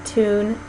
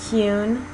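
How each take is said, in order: First: Said in the usual way. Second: Tune said tyune with a y glide; British tyune. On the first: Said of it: "if you say". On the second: Shown as a demonstration. Teacher showing palatalized British tune. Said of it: "say it in the British way".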